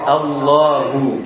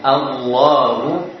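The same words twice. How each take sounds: First: The first vowel sounds light and clear. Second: The first vowel sounds heavy and dark. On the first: The speaker calls it right. "Seharusnya dibaca dengan apa? Dengan tipis" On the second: The speaker calls it wrong. "sedangkan a-nya tadi terpengaruh"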